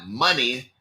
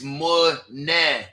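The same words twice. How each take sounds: First: It is said in a plain, ordinary accent. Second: It is said in a put-on British Isles accent. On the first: The speaker calls it wrong. "it's not money" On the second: The speaker calls it right. "That's my Irish accent or my Scottish accent"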